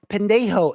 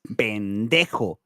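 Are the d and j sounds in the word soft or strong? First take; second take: soft; strong. First: The d and j sounds are soft and light. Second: The d and j sounds are strong and forceful. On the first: The speaker calls it wrong. "they think it's like, oh, pendejo" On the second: The speaker calls it right. "you gotta put that emphasis on the ho uh, and the D as well"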